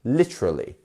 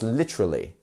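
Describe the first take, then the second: First: Some sounds in the middle are dropped. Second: Some sounds in the middle are dropped.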